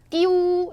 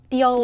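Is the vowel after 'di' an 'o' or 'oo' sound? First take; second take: oo; o. First: The vowel after di is oo. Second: The vowel after di is o. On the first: The speaker calls it wrong. "띠우 이게 아니라" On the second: The speaker calls it right. "이게 아니라 띠오"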